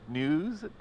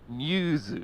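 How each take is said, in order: First: It is said with English pronunciation. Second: It is said like 'nyoozu', Japanese-style. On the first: "in English it's like new, N E W, news" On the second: "for Japanese it was uh, news. So it was like N Y O O Z U"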